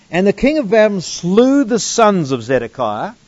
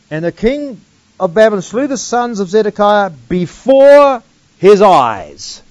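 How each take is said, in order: First: Said in the usual way. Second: "eyes" leaned on, the closing "his eyes" louder; stress on eyes. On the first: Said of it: "notice the emphasis on the word". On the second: Shown as a demonstration. Bible teacher rereads the verse, pressing on "his eyes". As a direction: land hard on "his eyes" at the end. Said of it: "notice the emphasis on the word eyes".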